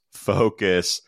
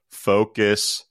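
Both takes have the same delivery.

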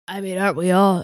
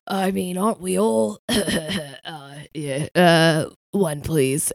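First: Wrong character voice. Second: Lightly voiced scratchy British man, a touch nervous; Roy Kent. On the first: Acted. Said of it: "sorry, that's the wrong voice". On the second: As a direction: put on a hesitant, gruff male character voice. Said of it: "Roy Kent".

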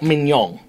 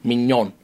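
First: "mignon" with a hard g closing the word; wrong pronunciation. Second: "Mignon" with no g at the end; soft French "Mignon", ending on a plain n; correct pronunciation. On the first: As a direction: end "mignon" on a ringing -ng. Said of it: "where you're making a mistake". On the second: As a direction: say "Mignon" low, without a final g. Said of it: "There's no G at the end". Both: Shown as a demonstration.

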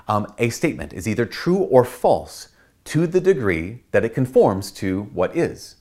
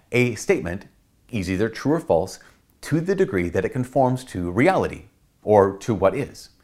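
First: Said in the usual way. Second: A statement... is either true or false, with pauses between phrases; slower, measured repeat. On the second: Shown as a demonstration. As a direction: spell it out phrase by phrase. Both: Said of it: "Let me say that again".

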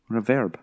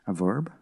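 First: Said in the usual way. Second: Quieter mock American accent, questioning; imitated American accent. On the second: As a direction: try VERB in an American accent. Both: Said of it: "doing it in your accent".

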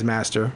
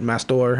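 First: "Master" said like the ordinary word; "Master" as in master and servant; first pronunciation. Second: "Mastor" with a full -or ending; "Mastor" with the second syllable sounded out as -tor; alternative pronunciation. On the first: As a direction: say "Master" with a short, unstressed ending. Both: Shown as a demonstration. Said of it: "however you wanna pronounce it".

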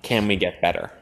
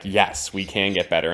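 First: Measured, searching question. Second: Firm, emphatic yes. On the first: Posing the show's central question to a co-host, questioning. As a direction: pose it as an open question. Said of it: "the show asks the question". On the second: Giving the show's answer to its question, emphatic. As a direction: answer with conviction. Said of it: "its answer is emphatically". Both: Retold or imitated.

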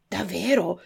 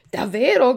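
First: Said in the usual way. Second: Più alto e forte, esultante; grido di gioia. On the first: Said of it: "gridò il burattino". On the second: A narrator's reading. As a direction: salta di gioia gridandolo. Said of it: "gridò il burattino saltando dall'allegrezza". (al vecchietto, grido felice e alto)

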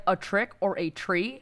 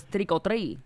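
First: "A trick or a tree" as separate words ending on "tree"; misheard words. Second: "trick or treat" run together as "triko-tree"; Latino-accented "trick or treat", final t dropped; Latino pronunciation. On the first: Kid offering neighbors options, "tree" said as a separate word. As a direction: spell out "tree" as a real option, questioning. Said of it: "So I was like". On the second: Kid who misheard the phrase, Latino "triko-tree" pronunciation. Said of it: "They don't know how to say". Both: Retold or imitated.

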